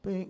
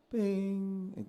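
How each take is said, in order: First: "Ping" sung a little flat, below the fork; flat note. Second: "Ping" sung high, a little sharp, above the fork; sharp note. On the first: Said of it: "you're a little flat". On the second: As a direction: overshoot the note on the high side. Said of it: "you're a little sharp". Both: Retold or imitated.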